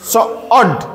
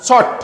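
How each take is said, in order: First: শর্ট split in two, sho-ort; sounded out. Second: শর্ট as one short syllable; blended word. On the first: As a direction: break শর্ট before its 'ort'. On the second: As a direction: say শর্ট whole, no break. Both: Shown as a demonstration. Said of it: "ও আর দিয়ে উচ্চারণ হবে অর".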